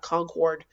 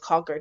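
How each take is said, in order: First: It is said the way non-local people say it. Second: It is said the way local residents say it. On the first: The speaker is not from New Hampshire. "not Concord" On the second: The speaker is really from New Hampshire. "that's how you know somebody is from New Hampshire"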